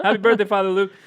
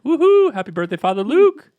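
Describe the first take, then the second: First: Raised pitch, less loud cheer; high but milder birthday wish; second birthday cheer. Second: High, loud celebratory whoop; high-pitched, excited birthday cheer; really high voice. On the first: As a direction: repeat the greeting with a little less whoop. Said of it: "I don't know why my voice got really high there". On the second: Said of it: "my voice got really high there". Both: Real, not acted.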